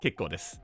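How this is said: It sounds like warm approval. It was fine or good. "the next one was like means it was fine"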